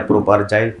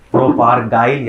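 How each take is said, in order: First: प्रोपारजाइल with a j sound, "jaail"; soft j variant. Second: प्रोपारगाइल with a hard g, "gaail"; hard g variant. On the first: Teacher offers students the other form, प्रोपारजाइल with soft j. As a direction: say प्रोपारजाइल with j as in jam. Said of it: "जो भी बच्चे बोलते हैं". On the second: Teacher gives students the common form, प्रोपारगाइल with hard g. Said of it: "ज़्यादातर लोग प्रोपारगाइल बोलते हैं". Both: Shown as a demonstration.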